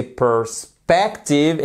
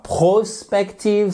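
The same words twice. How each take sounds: First: "perspective" slowly, stressed on SPEC; reduced per-, strong middle in "perspective"; second-syllable stress. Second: "prospective" with a full pro- at the start; mispronunciation demo. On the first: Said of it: "l'accentuation donc sur la seconde syllabe". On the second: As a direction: slowly sound "pro" opening "prospective". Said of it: "c'est pas prospective". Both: Shown as a demonstration.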